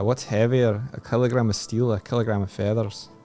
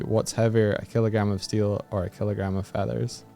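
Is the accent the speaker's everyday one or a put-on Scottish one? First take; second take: Scottish; everyday. First: It is said in a put-on Scottish accent. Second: It is said in the speaker's everyday accent. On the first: "your special accent ... That's even bad ... not good at Scottish accents" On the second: "if I just did it as my normal"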